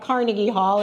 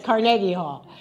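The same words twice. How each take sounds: First: The stress is on the first syllable. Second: The stress is on the second syllable. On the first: The speaker calls it wrong. "It's not Carnegie Hall" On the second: The speaker calls it right. "which I now know is how you pronounce it"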